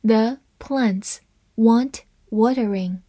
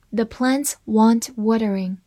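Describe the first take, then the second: First: Slow, even read, every word clear. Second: Said in the usual way. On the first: Shown as a demonstration. Teacher reading the example sentence slowly for learners. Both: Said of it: "我们分别来慢读一遍".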